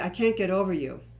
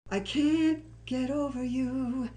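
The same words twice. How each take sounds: First: It is said flatly, with little melody. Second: It is said emotionally, with a strong melody. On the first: The speaker calls it wrong. "that doesn't have much emotion" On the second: The speaker calls it right. "that'll work"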